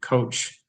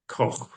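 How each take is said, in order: First: The name sounds like the English word coach. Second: The name is said with a German pronunciation. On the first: This is the family's simplified form of the name. "they changed it to Coach to be much easier" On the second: This is the original German form of the name. "It's supposed to be said Koch"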